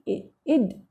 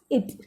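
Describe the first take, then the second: First: The word ends with a d sound. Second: The word ends with a t sound. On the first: "the different kind of pronunciation which is basically used in the chapter" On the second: "you can pronounce it as it"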